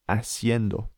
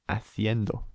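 First: It is said in a Latin American accent. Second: It is said in a Spain accent.

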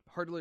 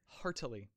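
First: The word is said quickly and blurred together. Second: The word is said slowly with each syllable clear. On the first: The speaker calls it wrong. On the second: The speaker calls it right.

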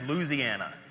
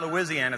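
First: The name is pronounced the way locals say it. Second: The name is pronounced the standard, non-local way. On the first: The speaker calls it right. "if you're from there, it's Louisiana. That's how you say it" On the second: The speaker calls it wrong. "it's not Louisiana"

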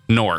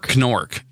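First: The word begins with an n sound. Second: The word begins with a k sound. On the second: "But you don't pronounce the K in knife"

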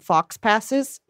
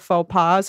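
First: It sounds like 'fox passes'. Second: It sounds like 'foe pah'.

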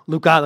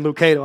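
First: The name is said with a Spanish accent. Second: The name is said with an English accent.

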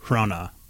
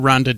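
First: No d sound is pronounced in the middle. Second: A d sound is pronounced in the middle. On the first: The speaker calls it right. "it's actually pronounced Rona" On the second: The speaker calls it wrong. "There's a D in it"

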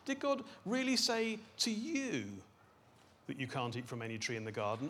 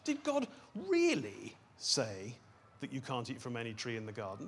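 First: The stress is on the word you. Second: The stress is on the word God.

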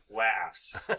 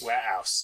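First: The h sound in 'house' is pronounced. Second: The h sound in 'house' is dropped. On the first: The speaker calls it wrong. "You just said it" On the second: The speaker calls it right. "I can't pronounce the letter H"

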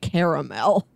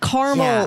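First: The word is said with more syllables. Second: The word is said with fewer syllables. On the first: It sounds less crunchy. "than when you say caramel" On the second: It sounds like something you can crunch on. "when you pronounce it like that, it sounds crunchier"

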